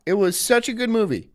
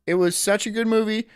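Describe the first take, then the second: No difference in how they are said.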